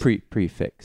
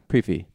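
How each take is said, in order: First: The word ends with a 'ks' sound. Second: The word ends with an 'ee' vowel.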